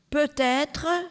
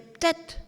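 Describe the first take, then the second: First: The final '-tre' ending is fully pronounced. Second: The final '-tre' ending is not fully pronounced. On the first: This is the standard French pronunciation. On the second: This is how a local Nantes man says it.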